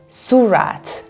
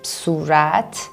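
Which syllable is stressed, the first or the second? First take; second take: first; second. First: The stress is on the first syllable. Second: The stress is on the second syllable.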